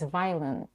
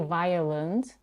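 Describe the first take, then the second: First: The second syllable is almost dropped. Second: The second syllable is fully pronounced. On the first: The speaker calls it right. "She significantly reduces the second syllable. Almost no schwa there" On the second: The speaker calls it wrong. "She doesn't say violent"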